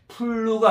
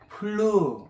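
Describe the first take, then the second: First: It begins with a p sound made by both lips. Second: It begins with an f sound, teeth on lip. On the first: The speaker calls it wrong. "플루가 아니고" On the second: The speaker calls it right. "윗니로 아랫입술을 살짝 문, 문 상태에서 푸 발음하는 거예요"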